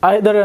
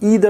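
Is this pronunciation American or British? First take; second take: British; American. First: It is said with a British pronunciation. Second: It is said with an American pronunciation. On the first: "এটা হচ্ছে British pronunciation" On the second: "হচ্ছে American pronunciation"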